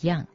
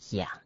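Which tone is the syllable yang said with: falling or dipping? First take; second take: falling; dipping. First: The syllable is said with a falling tone. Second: The syllable is said with a dipping tone. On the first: It refers to caring for someone above oneself. "对上要读作供养、孝养，第四声" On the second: It refers to raising someone below oneself. "对下才读作第三声养"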